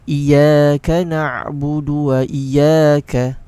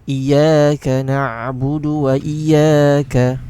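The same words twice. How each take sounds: First: The ya sound is short and single. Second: The same.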